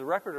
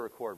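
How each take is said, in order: First: Record pronounced "REK-erd", like the noun; first-syllable stress. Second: Record pronounced "ri-KORD", like the verb; second-syllable stress. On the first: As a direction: hit REK, reduce the second syllable of Record. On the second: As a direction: reduce the first syllable of Record, hit KORD. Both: Shown as a demonstration. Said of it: "is it Record or Record".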